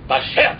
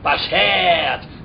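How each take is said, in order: First: The word is said short and clipped. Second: The word is said long and drawn out. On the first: The speaker calls it right. "It's like bashert" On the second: The speaker calls it wrong. "It's not bashert"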